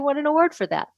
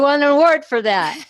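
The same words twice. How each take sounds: First: It is said in a modest, understated tone. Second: It is said in a boastful, showy tone. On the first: The achievement is mentioned humbly. The speaker calls it right. "I just said that in a modest tone" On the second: The speaker is bragging about the achievement. The speaker calls it wrong. "that might sound kind of braggy"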